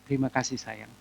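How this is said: It is said in a warm, affectionate tone. The speaker calls it right. "yang dia senang itu adalah waktu saya dan dengan nada yang seperti ini"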